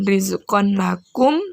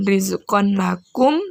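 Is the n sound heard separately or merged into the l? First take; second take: heard; heard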